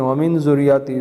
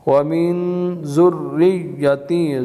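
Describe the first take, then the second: First: The vowel before the final syllable is long. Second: The vowel before the final syllable is short. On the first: The speaker calls it wrong. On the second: The speaker calls it right.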